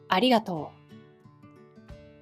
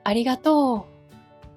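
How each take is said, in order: First: It has standard Japanese intonation. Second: It has Kansai dialect intonation.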